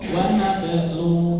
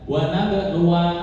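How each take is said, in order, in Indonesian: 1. Frasa ini berakhir pada vokal u. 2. Frasa ini berakhir dengan suku kata wa tambahan. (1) "Ketika waqaf wa nablu" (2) "bukan wa nablu wa, salah"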